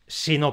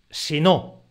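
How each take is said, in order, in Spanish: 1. La palabra es átona, se apoya en la palabra siguiente. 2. La palabra tiene acento propio en no. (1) "Sino no tiene golpe de voz propio" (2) "tiene su propio golpe de voz"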